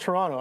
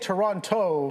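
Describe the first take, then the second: First: The second T is dropped. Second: The second T is clearly pronounced. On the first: The speaker is from the city. The speaker calls it right. "If you're from Toronto, you're from Toronto" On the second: The speaker is not from the city. The speaker calls it wrong. "that's a hard T. ... that's a dead giveaway"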